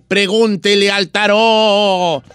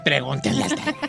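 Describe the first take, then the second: First: It is said in a spooky, eerie way. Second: It is said in a normal, cheerful way.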